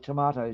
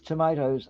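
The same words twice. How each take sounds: First: It is said with a British accent. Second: It is said with an American accent.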